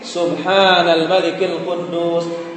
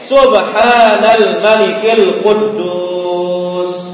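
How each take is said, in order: First: It is said a little louder. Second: It is said loudest of all.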